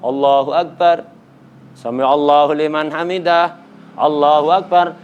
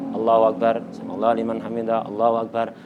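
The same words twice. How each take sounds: First: It is said loudly, in a raised voice. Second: It is said quietly, in a low voice.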